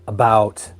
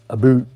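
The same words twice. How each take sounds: First: It is said with a standard American vowel. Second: It is said with a stereotyped Canadian vowel.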